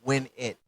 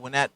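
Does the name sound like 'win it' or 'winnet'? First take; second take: win it; winnet. First: It sounds like the two words 'win it'. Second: It sounds like the single word 'winnet'. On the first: The speaker calls it right. "but it's Win It because my name is [name]" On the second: The speaker calls it wrong. "some people pronounce it Winnet"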